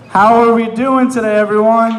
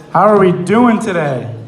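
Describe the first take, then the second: First: Higher, shouted crowd greeting; louder, more excited. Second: Said in the usual way. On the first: Shown as a demonstration. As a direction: pump up the audience. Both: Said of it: "Let's try that one more time".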